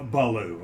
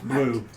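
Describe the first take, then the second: First: The name is said as two syllables. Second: The name is said as one syllable. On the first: The speaker calls it right. "you pronounce Blue, uh, Baloo, of course" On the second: The speaker calls it wrong. "you don't pronounce it that way"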